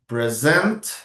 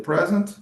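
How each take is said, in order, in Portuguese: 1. O acento está na segunda sílaba. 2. O acento está na primeira sílaba. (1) "to show, introduce someone" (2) "that's a gift"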